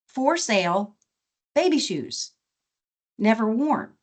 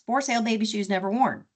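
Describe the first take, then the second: First: It is read with expressive, sorrowful inflection. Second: It is read flatly, like a plain advertisement. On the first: A baby has died before wearing them. The speaker calls it right. "with appropriate prosody and inflection, it's a really heartbreaking story" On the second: Some shoes are simply being sold. The speaker calls it wrong. "it sounds like an ad in the classifieds"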